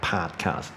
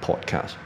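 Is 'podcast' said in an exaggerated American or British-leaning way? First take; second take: American; British. First: It is said with an exaggerated American pronunciation. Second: It is said with a British-leaning pronunciation. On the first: The speaker calls it wrong. "这个我觉得是夸张的不得了的一个念法" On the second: The speaker calls it right. "我会念podcast，这个是比较偏向英式的"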